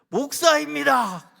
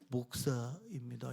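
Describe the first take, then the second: First: It is said in a loud, clear voice. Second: It is said in a tiny, very quiet voice. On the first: The speaker has to make it heard. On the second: The speaker is reluctant to admit it.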